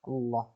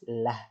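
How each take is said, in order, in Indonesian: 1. Bunyi l terdengar tebal dan gelap, dekat dengan o. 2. Bunyi l terdengar tipis dan jelas, diikuti a. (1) "Maka lafaz Allahnya dibaca dengan tebal" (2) "Lafaz Allahnya dibaca tipis"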